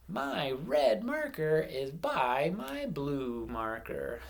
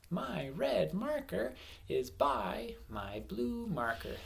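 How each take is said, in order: First: Slow, clear model sentence; teacher modelling a sentence for counting words. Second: Slow read, red a bit higher; teacher rereads the sentence to count its words. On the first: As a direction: say every word slowly so kids can count. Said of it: "I'm going to say". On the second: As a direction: read slowly, marking each word to count. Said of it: "how many words are in my sentence". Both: Shown as a demonstration.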